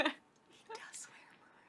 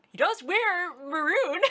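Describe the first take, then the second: First: Whispered. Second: Said in the usual way. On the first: Real, not acted. Repeat whispered after saying it.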